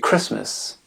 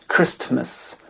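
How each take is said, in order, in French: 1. Le son t est complètement omis. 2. Le son t est prononcé au milieu. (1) "mais Christmas" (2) "et non pas Christ, Christmas"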